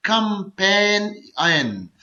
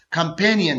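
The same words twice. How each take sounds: First: companion very slowly, कं-पेन-इयन; syllable by syllable. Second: Said in the usual way. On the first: Shown as a demonstration. Teacher demonstrating a three-syllable word, companion slowly split in three. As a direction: break companion into three drawn-out beats. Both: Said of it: "ये three syllable word है".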